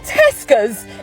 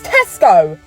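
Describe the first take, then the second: First: The word ends with an added s sound. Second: The word ends on the o vowel. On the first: The speaker calls it wrong. "It's not Tesco's" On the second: The speaker calls it right. "it's Tesco"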